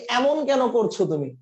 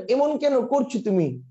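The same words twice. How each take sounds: First: "এমন" and "কেন" with wide ae, "æmon kæno"; open ae vowel. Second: "এমন" and "কেন" with tight e, "emon keno"; close e vowel. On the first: Teacher showing students the usual way, open ae vowel. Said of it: "এমন বলেন". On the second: Teacher showing students an unnatural reading, close e vowel. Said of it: "এমন কখনো বলেন". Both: Shown as a demonstration.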